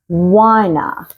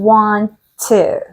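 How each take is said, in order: First: The words blend into one reduced word. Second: Both words are said fully and separately. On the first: "In American English, the short form for want to is wanna" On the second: "we say, I want to"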